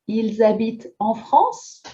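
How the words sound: The voice rises at the end. It is a question.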